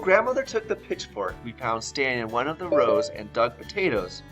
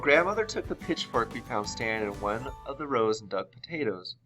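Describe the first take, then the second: First: It is read with lively expression. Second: It is read flatly, without expression.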